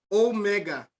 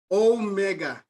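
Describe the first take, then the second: The two takes are said the same way.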